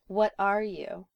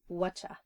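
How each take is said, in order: First: All words are pronounced fully and separately. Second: The words run together into one reduced form.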